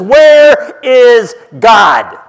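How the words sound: It is asked loudly in a very stern tone.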